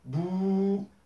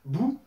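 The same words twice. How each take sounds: First: The vowel is held for two beats. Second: The vowel is held for one short beat. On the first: "d'allonger euh, le temps" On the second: "comme on a vu dans la leçon précédente"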